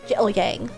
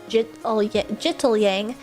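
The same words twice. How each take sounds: First: The middle consonant is a glottal stop. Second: The middle consonant is a clear t sound. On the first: "spoken very quickly so that the middle syllable almost sounds like a glottal stop" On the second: "most people pronounce it as jittle yang"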